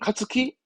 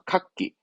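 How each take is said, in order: First: A full 'tsu' syllable is said before the k. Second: The k is doubled with no 'tsu' syllable. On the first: The speaker calls it wrong. "그럼 카츠키? 아니죠?" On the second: The speaker calls it right. "그렇죠. 카키"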